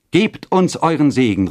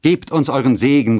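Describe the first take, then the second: First: Higher, louder plea; high, ringing entreaty; joint call. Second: Loud, raised plea; high, earnest entreaty; youth's call. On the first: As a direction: call out together, imploring. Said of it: "riefen beide". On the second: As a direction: call out for a blessing. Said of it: "rief der Jüngling". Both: A narrator's reading.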